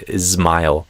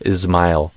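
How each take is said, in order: Both takes have the same delivery.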